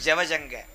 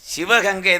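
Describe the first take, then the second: First: The third syllable starts with an s sound. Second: The third syllable starts with a g sound. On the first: This is how local people say the name. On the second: This is the standard form of the name. "சிவகங்கை தான் சொல்கிறது"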